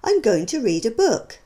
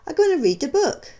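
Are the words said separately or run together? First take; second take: separately; run together. First: Each word is pronounced separately and fully. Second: The words run together into reduced sounds. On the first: "you can see the words being spoken" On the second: "followed by how they might sound to the listener"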